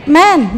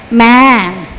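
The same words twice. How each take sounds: First: "man" said as "men", with a plain e; "man" pronounced as the plural "men"; ordinary "men". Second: "man" with a long, wide "ae"; "man" said broad as "maen"; open-vowel "man". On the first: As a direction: keep the vowel of "man" narrow, like "men". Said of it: "man, biasa". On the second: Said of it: "Man aja, man". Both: Shown as a demonstration.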